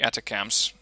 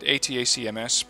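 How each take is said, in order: First: It is said as a single word. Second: It is spelled out letter by letter. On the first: This is the common shortcut. The speaker calls it wrong. "Most people just pronounce them the Atacams" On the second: This treats it as a true abbreviation. The speaker calls it right. "you should be pronouncing it ATACMS, but of course that's taking too long"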